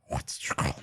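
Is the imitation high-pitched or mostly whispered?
whispered. It is mostly whispered, without a high pitch. The speaker calls it wrong. "I whispered it too much, so I couldn't get the high"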